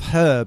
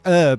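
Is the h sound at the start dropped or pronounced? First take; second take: pronounced; dropped. First: The word starts with an h sound. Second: The word starts without an h sound. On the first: "instead of herb" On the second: "people in America say herb"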